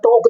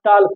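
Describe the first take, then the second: First: The L sound is silent. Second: The L sound is pronounced. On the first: The speaker calls it right. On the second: The speaker calls it wrong.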